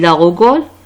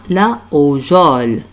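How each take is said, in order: First: The word begins with a hard G sound. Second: The word begins with a soft J sound. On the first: The speaker calls it wrong. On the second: The speaker calls it right.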